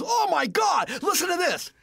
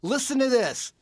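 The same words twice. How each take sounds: First: High, loud retold amazement; excited shout down the phone; thrilled outburst. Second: Raised, louder retold invitation; mildly excited setup; eager announcement. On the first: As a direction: mimic a blown-away teenager. Imitates friend's thrilled phone reply. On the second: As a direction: show off to a friend over the phone. Retelling his own phone dare.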